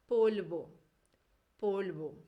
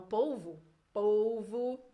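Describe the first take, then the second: First: Polvo, with a clear O at the end, not a U; Spanish final O. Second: Polvo, Carioca style, with the final O as a U; Carioca Portuguese. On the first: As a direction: keep the last O of polvo an O. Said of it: "cuidado do O final pra ele não virar um U". (polvo em espanhol, com O final fechado) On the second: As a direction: say polvo like a Carioca, with povu at the end. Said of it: "esse O aí do final vira um U". (polvo com sotaque carioca, O final vira U) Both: Shown as a demonstration.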